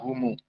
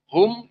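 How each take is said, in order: First: The word ends with an added u vowel. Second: The word ends on a closed m sound. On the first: This is Abu Ja'far's reading. "mim sakinah dibaca dengan silah" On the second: This is the majority reading. "Hum dibaca humu"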